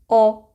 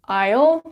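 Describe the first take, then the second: First: It is reduced to sound like "all". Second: It is said with a full "eye" vowel. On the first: "So normally it will sound as all" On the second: "I will can sound like I'll, I'll, but it's not very common actually"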